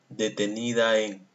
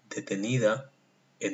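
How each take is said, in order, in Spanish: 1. Las vocales final e inicial se unen con suavidad. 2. Una pausa lenta separa las vocales final e inicial. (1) "No lo lee así" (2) "Lo lee pues pausado y separa bien detenida de en el polvo"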